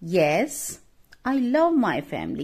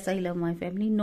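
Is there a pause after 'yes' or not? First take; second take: pause; no pause. First: There is a pause after yes. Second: It runs on without a pause after yes.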